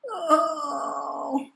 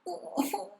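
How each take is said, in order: First: It is voiced as a soft moan. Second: It is voiced as a low groan. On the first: "We can moan" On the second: "and groan"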